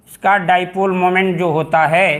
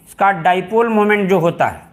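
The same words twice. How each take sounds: The two takes are said the same way.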